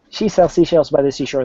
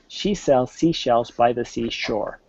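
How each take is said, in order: First: It is said fast. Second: It is said slowly.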